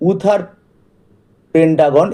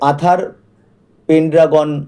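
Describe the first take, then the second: First: The name begins with an 'oo' vowel sound. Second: The name begins with an 'ah' vowel sound. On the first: The speaker calls it right. "উথার পেনড্রাগন এই নামটাই সঠিক হবে" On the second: The speaker calls it wrong. "অনেকে এটাকে আথার পেনড্রাগন ও বলে"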